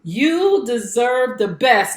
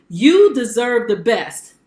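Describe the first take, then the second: First: Very slow, drawn out with a rising end; slower intimate repeat. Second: Slow, weighted and louder; slow emphatic sign-off. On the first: Host repeating her motto straight to the viewer, slower and intimate. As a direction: linger on every word as if leaning in. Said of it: "Yes, I'm talking to you". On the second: Host closing her broadcast, slow and emphatic. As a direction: press each word to the viewer. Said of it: "Remember what I tell you at the end". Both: Shown as a demonstration.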